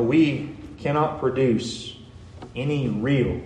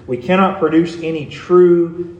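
First: Slow down and land deliberately on "real"; "real" set apart after a pause, with weight; stress on real. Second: "true" given deliberate weight at the end; stress on true. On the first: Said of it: "an emphasis on the word real". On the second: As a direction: restate it more firmly, leaning on "true". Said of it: "emphasis on the word real or true". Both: Real, not acted.

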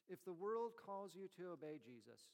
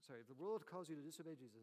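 First: Said in the usual way. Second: Rushed correction of "disobey"; quick self-correction. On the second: Real, not acted. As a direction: hurry to fix the slip, stressing "disobey".

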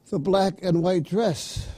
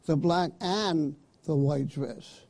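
First: BLACK stressed, "and white dress" run together; one-item phrasing. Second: AND stressed, a break before "the white dress"; two separate items, THE repeated deliberately; two-item phrasing. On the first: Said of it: "one dress". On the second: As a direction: split "black AND" from "the white dress". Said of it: "would be at least two dresses". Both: Shown as a demonstration.

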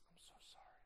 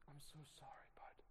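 First: Breathy whispered sorry, barely voiced; whispered apology. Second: Hushed apology. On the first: To a grieving friend, a soft whispered sorry. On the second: Retold or imitated. Retold comforting of grieving friend.

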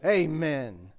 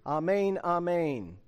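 First: "Amen." said AY-men, long ay vowel; Southern congregation's AY-men; amen pronounced ay-men; Southern church amen. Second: Amen said ah-MAIN, open ah vowel; "Amen" as ah-mein, the Greek way; amen pronounced ah-main. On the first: Retold or imitated. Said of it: "in Southern churches... what do they say?". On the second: Shown as a demonstration. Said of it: "If you have the Greek".

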